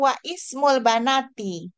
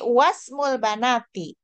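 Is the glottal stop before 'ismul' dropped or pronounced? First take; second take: pronounced; dropped. First: A separate glottal vowel starts ismul after wa. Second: Wa runs straight into smul with no stop. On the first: The speaker calls it wrong. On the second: The speaker calls it right. "tapi wasmul banati"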